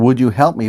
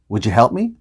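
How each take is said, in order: First: The word 'you' is said fully and clearly. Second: The word 'you' is reduced, sounding like 'ya'. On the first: "Instead of saying" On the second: "Would ya?"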